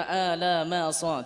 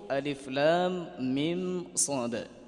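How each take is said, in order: First: The letters are run together as short syllables. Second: Each letter is said by its full name. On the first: The speaker calls it wrong. "jadi tidak dibaca alamasa, tidak" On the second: The speaker calls it right. "dengan membaca hurufnya"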